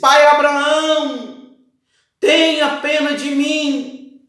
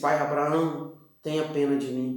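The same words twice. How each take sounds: First: It is shouted in a desperate way. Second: It is said calmly, without shouting.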